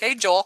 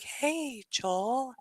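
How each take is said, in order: First: It is said in a normal adult tone. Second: It is said in a childlike tone.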